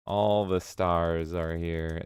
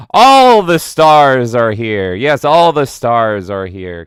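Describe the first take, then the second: First: Soft, slow murmur; hushed slow aside; quiet. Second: Slow, loud proclamation; loud slow mock announcer; grand announcement. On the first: Acted. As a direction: say it to yourself. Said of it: "repeated quietly". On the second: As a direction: announce like a red carpet host. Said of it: "announces stars in chat".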